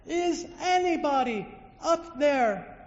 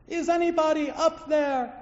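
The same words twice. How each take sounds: First: High, loud, slow plea; calling out again. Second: High, loud plea upward; calling for help. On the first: Man hanging from a tree calls again, slow and loud. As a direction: stretch the call upward, pleading. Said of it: "he calls out again". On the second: Man on a cliff calls out for help, loud. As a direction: call up to the sky for help. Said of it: "let out a plea". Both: Acted.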